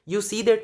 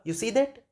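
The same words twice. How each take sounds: First: The voice falls flat at the end. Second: The voice rises at the end. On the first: It is stating something. "अभी भी expression यू सी दैट नहीं होगा" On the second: It is asking a question. "यू सी दैट कुछ इस तरह से होगा, और इस टोन से ही पता चल जाएगा कि सेंटेंस बताया जा रहा है या पूछा जा रहा है क्वेश्चन"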